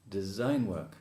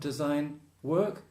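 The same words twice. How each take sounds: First: The stress falls on the first word. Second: The stress falls on the second word. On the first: The speaker calls it right. "normally the stress is on the first word" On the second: The speaker calls it wrong. "Not design work"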